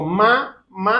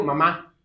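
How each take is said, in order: First: "Ma, ma" split into two slow separate beats; syllable by syllable. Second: "mamá" run together in one quick word; said quickly. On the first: Preacher showing a child the word slowly, syllable by syllable. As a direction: spell out "Ma, ma" slowly as if teaching a toddler. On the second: Preacher telling the child to say it quickly, run together. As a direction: say "mamá" fast, both syllables joined. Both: Shown as a demonstration. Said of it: "a ver, dilo rápido".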